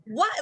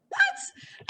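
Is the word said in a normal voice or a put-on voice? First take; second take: normal; put-on. First: It is said in the speaker's normal voice. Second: It is said in an exaggerated put-on character voice.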